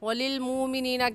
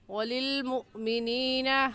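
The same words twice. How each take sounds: First: The word flows smoothly with no throat catch. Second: A slight catch in the throat breaks the word. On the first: The speaker calls it wrong. "कहना गलत है" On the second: The speaker calls it right. "सही है"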